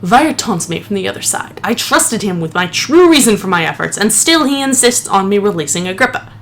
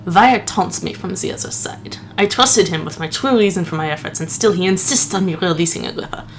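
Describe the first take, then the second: First: Steadier, more serious reading of the note; dignified retry. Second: A hint of the lisping Princess Bride priest; mock-solemn clergyman read of the note. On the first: Acted. Gamer rereads the note seriously after laughing at himself. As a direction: restore the dignity of the journal. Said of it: "Let me try again". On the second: Gamer reads journal, slipping into the Princess Bride priest. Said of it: "sounding like the priest from The Princess Bride".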